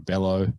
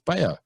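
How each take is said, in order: First: The middle consonant is an L sound. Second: The middle consonant is a Y sound. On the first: The speaker calls it wrong. "they pronounce the double L" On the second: The speaker calls it right. "but it's Bayo"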